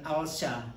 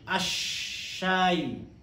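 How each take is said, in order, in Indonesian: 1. Bunyi L pada artikel jelas terdengar. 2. L menyatu menjadi bunyi sh yang digandakan. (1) "Bukan al-syah" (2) "tapi asyayu"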